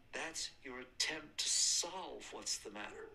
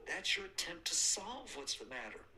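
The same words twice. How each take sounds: First: Measured, unhurried teaching line; slow, deliberate statement. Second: Higher and louder, driving the point home; emphatic repeat. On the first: Teacher to students, first take, slow and deliberate. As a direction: lay it out slowly, word by word. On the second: Teacher to students, repeating the point, higher and louder. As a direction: press it harder on the repeat. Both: Shown as a demonstration. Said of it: "Listen to this".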